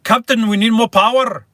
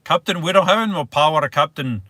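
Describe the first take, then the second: First: Loud, high Scottish engineer cry; Scottish accent. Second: Quick, raised-pitch attempt at Scottish; terrible Scottish accent. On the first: Livestreamer attempting a Scottish accent for viewers, loud Scottish accent. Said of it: "The best I can do is". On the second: Livestreamer retrying the line for viewers, terrible Scottish accent. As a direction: have a hurried second go at a bad Scottish accent. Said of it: "A terrible accent". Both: Shown as a demonstration.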